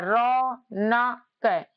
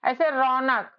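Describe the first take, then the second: First: Raunak stretched syllable by syllable, very slow. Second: Said in the usual way. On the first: Shown as a demonstration. Teacher stretching Raunak slowly for students. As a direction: pull Raunak apart slowly as रौ-न-क. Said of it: "रा में अ का उच्चारण है". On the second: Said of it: "मान लो रौनक लिखा है".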